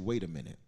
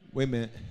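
First: Every word is said out in full. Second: The words are squeezed into one short word. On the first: "In the South, we don't say" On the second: "In the South, we say, wait a minute. W-A-Y-M-E-N-T. See, we just cut some of the extra words out"

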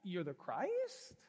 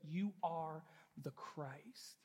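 First: The voice rises at the end, like a question. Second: The voice falls at the end, sounding certain.

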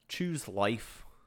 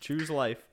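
First: It is said in a Scottish character voice. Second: It is said in the speaker's plain voice.

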